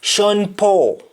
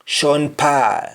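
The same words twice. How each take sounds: First: "Paul" with rounded aw; "[name]" high, Paul as PAWL; English aw form. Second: "Paul" in Jamaican, said PAAL; "[name]" with open Jamaican ah in Paul; Jamaican accent. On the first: Teacher giving the English name, "Paul" with round aw. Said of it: "Instead of A W or A U". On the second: Teacher showing the name in Jamaican accent, "Paul" as paal. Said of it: "That is Jamaican accent". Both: Shown as a demonstration.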